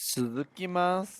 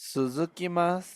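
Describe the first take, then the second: Both takes have the same delivery.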